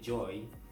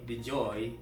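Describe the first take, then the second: First: No D sound is pronounced before the name. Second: A D sound is pronounced before the name. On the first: "jadi D-nya nggak dibaca" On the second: "Joy atau The Joy gue nggak tahu bacanya"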